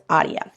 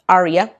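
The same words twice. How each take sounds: First: Aria with a tapped Spanish r, AH-dya; Spanish pronunciation. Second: Aria with an English r, AH-ree-uh; English pronunciation. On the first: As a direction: say Aria the Spanish way, with a quick tap on the r. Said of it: "you know, Spanish". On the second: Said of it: "in English". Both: Shown as a demonstration.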